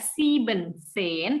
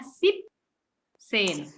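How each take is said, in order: First: The full form sieben is kept before zehn. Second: Sieben is shortened to one syllable before zehn. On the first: The speaker calls it wrong. "dia tidak sieben sen" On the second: The speaker calls it right. "tetapi hanya sip sen"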